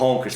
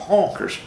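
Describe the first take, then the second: First: Said in the usual way. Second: HONKERS drawled with a heavy Texan accent. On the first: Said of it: "Não falou Honkers, falou Honkers". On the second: Shown as a demonstration. Showing how the Texan said it, Texan accent. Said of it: "uma coisa mais acentuada".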